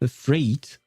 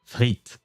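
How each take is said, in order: First: It is said with an English-style R. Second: It is said with a throaty French R. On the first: The speaker calls it wrong. "with a butchered French accent" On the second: The speaker calls it right. "the real pronunciation"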